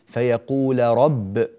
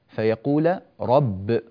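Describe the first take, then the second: No difference in how they are said.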